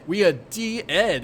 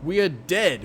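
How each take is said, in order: First: "de-ed" stretched into two syllables; drawn-out pronunciation. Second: Said in the usual way. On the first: Acted. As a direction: split "de-ed" slowly in two, dee-ed. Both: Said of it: "I should just say dead".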